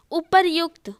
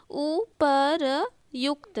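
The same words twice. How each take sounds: First: Said in the usual way. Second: उपरयुक्त very slowly, "u-pa-ra-yukta"; long gaps between the parts of उपरयुक्त; sounded out. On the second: Shown as a demonstration. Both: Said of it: "यहाँ पे र आना चाहिए".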